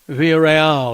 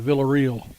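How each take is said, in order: First: The name is said with Spanish sounds. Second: The name is said with English sounds. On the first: The speaker calls it right. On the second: The speaker calls it wrong.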